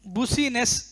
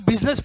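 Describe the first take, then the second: First: It is said as boo-see-ness, sounding every letter. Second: It is said as biz-ness, in two short syllables. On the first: The speaker calls it wrong. "गलत है" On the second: The speaker calls it right. "इसको बिजनेस पढ़ना है"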